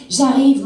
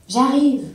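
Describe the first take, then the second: First: Loud call across the garden, pitched up. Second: Loud call, pitched up; "J'arrive" called out loud. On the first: Wife calling back to her husband outside, loud call. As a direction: shout it so he hears from far. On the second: Wife answering her husband from afar, loud call. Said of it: "dis-je". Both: Acted.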